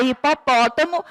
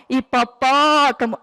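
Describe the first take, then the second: First: Said in the usual way. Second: "Hipopótamo" slowed, with "pó" held long; calling the word out. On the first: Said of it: "a sílaba mais forte é a sílaba pó". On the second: Shown as a demonstration. Teacher showing the strong syllable, "Hipopótamo" called with drawn-out "pó". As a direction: stretch the "pó" in "Hipopótamo" like a call. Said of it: "Eu posso sempre chamar pra eu conseguir identificar".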